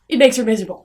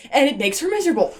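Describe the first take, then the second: First: Makes punched, the rest said flatly; stress on makes. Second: Said in the usual way. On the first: Shown as a demonstration. Reviewer repeating the plot point, leaning on makes. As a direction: lean hard on the word makes.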